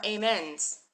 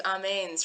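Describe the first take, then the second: First: AMENS said ay-MENS; English pronunciation. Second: AMENS said ah-MAINS; Hebrew pronunciation. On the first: Teacher banning the English form, AMENS as ay-MENS. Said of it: "No more amens". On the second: Teacher announcing the new form, AMENS as ah-MAINS. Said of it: "We're gonna do amens from now on". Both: Shown as a demonstration.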